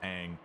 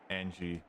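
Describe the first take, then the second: First: The name is said as one short syllable. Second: The name is said with an extra ending syllable. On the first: This is the name's proper form. The speaker calls it right. "her properly pronounced name is Aang" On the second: This is the form adapted into Japanese. The speaker calls it wrong. "the reason they call it Angie in the game is simply because that it's transliterated"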